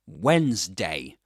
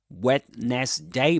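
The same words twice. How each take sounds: First: The word is said with two syllables. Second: The word is said with three syllables. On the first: The speaker calls it right. "but Wednes. ... Two syllables" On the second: The speaker calls it wrong. "You don't say Wednesday"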